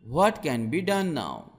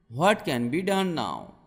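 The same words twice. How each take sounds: The two takes are said the same way.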